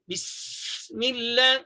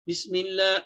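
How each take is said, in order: First: The s sound is pronounced with excessive force. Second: The s sound is pronounced very weakly. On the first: "itu melampau. Ha, itu kuat" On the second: "Lemah sangat"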